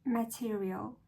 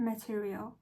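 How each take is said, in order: First: "Material" with no hard R, a soft rising end. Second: "Material" said again with the R barely sounded; soft R material. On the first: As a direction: learner retries "Material" softening the R for tutor. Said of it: "soften the R in material". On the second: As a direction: learner repeats "Material" once more after tutor's tip. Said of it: "keep that R a little softer". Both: Shown as a demonstration. British "Material", soft R.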